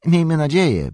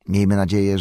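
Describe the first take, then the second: First: Miejmy nadzieję said higher and louder, Miejmy stressed; fervent echo. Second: Said in the usual way. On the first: Acted. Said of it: "powtórzył Butterbur". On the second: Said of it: "powtórzył".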